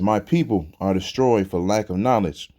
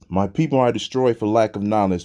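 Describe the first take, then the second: First: It is read slowly. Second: It is read fast.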